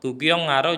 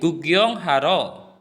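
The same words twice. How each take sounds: First: It is said quickly without extra emphasis. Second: It is said slowly with some emphasis. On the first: "kalau mau dibaca cepat" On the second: "agak lambat sedikit ada atau ada penekanan"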